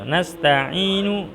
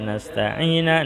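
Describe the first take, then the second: First: The word ends with an u vowel. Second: The word ends with an a vowel. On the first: The speaker calls it right. "Nasta'inu tidak boleh dibaca nasta'ina" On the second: The speaker calls it wrong. "tidak boleh dibaca nasta'ina"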